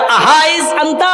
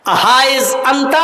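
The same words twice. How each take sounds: First: Repeat the question. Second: Umar repeats call. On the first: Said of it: "حضرت عمر نے کیا کہا؟". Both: Retold or imitated.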